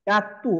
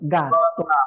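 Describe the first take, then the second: First: The word ends with a 'u' vowel. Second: The word ends with an 'o' vowel. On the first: The speaker calls it wrong. "অনেকে বলে এটাকে গাত্তু" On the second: The speaker calls it right. "গয়ের মতো হবে"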